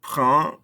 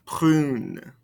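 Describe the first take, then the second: First: "Brun" ending on its nasal vowel; silent ending consonant. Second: "Prune" closed on a clear N; sounded ending consonant. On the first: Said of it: "not pronouncing these ending consonants". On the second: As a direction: let the final N of "Prune" ring. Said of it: "makes us pronounce those ending consonants". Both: Shown as a demonstration.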